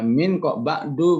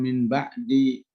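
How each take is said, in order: First: The last word ends in an 'u' vowel. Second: The last word ends in an 'i' vowel. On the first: An unstated, implicit explanation lies behind it. "Maka dibaca dhammah" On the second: It follows the usual rule after this word. "kalau min itu harus kasroh kan"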